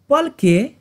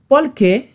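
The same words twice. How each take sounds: The two takes are said the same way.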